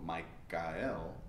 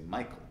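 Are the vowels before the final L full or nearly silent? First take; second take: full; silent. First: The vowels before the L are fully pronounced. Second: The vowels before the L are nearly silent. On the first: The speaker calls it wrong. "You don't go Michael" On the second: The speaker calls it right. "you say Michael. They're almost silent"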